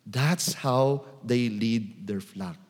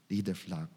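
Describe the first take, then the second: First: Said in the usual way. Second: Softer, lower repeat of "Lead their flock"; preacher echoing his point much softer; quiet echo. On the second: Shown as a demonstration.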